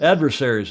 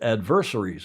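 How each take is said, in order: First: The word is said with an American pronunciation. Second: The word is said with a British pronunciation. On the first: "as we might say" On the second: "as the Brits would say"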